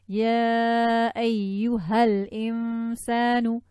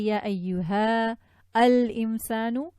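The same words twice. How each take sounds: First: Ayyuha runs straight into al-insan. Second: Ayyuha and al-insan are said separately. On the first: "But if I join it" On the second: "I can break it up and read it like this"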